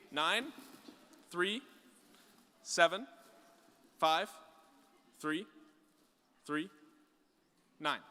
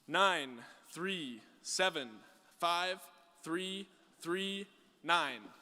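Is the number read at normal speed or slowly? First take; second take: slowly; normal. First: The number is read slowly, digit by digit. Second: The number is read at normal speed.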